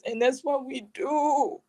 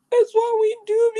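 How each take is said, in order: First: Said in the usual way. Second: Higher, louder, rising repeat; insistent emphasis; emphatic repeat. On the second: Real, not acted. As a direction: push the point home, rising. Repeating her point for emphasis.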